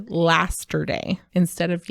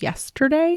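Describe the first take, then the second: First: "lasterday", opening with LAST in place of YES; child's mispronunciation. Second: Said in the usual way. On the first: Retold or imitated. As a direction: slowly sound out "lasterday" as the child said it. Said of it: "used to say "lasterday" instead of".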